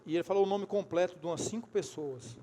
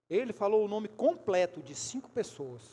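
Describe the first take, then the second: First: Said in the usual way. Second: Deliberate, punched stress on "completo"; weighty restatement stressing "completo"; emphatic repeat. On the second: Real, not acted. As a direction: drive home "completo" to the congregation.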